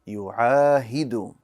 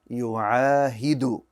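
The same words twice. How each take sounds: First: The word ends with a 'u' vowel. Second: The word ends with a 'u' vowel.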